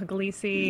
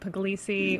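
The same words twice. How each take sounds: First: The name is pronounced in a mangled, anglicized form. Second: The name is pronounced in a mangled, anglicized form.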